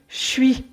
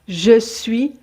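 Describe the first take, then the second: First: The vowel of je is dropped entirely. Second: The vowel of je is fully pronounced.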